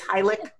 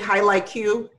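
First: The name ends plainly without a 'cue' sound. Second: The name ends with an added 'cue' sound. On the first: The speaker calls it right. "but it's Hylic" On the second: The speaker calls it wrong. "I used to say Hylic Q"

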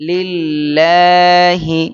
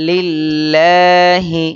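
The two takes are said the same way.

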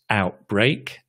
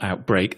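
First: The stress is on the first syllable. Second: The stress is on the second syllable. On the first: The speaker calls it right. "out is the stressed one" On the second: The speaker calls it wrong. "not outbreak"

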